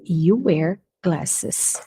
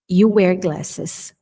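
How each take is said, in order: First: You wear glasses drawn out very slowly, lower; very slow dictation; extra slow model. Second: You wear glasses said slowly, you stressed; slow dictation; slow model. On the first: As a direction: say it even slower. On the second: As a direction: say it slowly for students. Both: Shown as a demonstration. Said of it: "teacher repeats".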